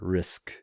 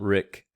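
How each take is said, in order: First: The syllable ends in an sk sound. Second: The syllable ends in a plain k sound. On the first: The speaker calls it right. "It's risk" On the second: The speaker calls it wrong. "It's not Rick"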